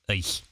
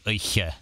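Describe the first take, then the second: First: The word ends without a final vowel. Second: A final vowel is pronounced at the end. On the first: The speaker calls it right. "It's just eich" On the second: The speaker calls it wrong. "so it wouldn't be eiche"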